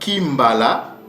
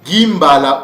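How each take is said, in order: First: The word begins with a K sound. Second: The word begins with a G sound. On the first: "avec le K" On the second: "avec le G"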